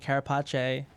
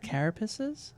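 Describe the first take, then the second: First: The word has an Italian-style pronunciation. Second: The word has an ordinary English pronunciation. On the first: "I grew up in an Italian neighborhood, so I always been calling it carapace" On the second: "Is that how you pronounce the word?"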